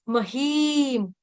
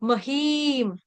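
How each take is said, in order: No difference in how they are said.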